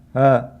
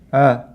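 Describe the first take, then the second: The two takes are said the same way.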